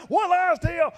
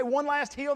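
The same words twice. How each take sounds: First: Loud, higher chant of the crowd; chanted, belt it like a cheering crowd. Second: Said in the usual way. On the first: Retold or imitated. Club kids cheering runners, a loud high chant. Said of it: "They've been saying that for f-, nine miles". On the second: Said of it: "holding up signs that say".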